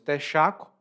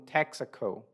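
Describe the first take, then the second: First: It is pronounced with Brazilian Portuguese sounds. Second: It is pronounced with English-like sounds. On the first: This is how Brazilians say it. "Em português do Brasil, nós dizemos Texaco" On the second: This is how foreigners probably know it. "eu acho que você deve conhecer como Texaco"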